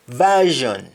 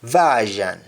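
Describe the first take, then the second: First: Said in the usual way. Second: Version ending in open "zhan"; Jamaican pronunciation. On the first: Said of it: "English words that end with shon". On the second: Shown as a demonstration. Teacher showing Jamaican speech, version said as "vazhan". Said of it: "That is accent".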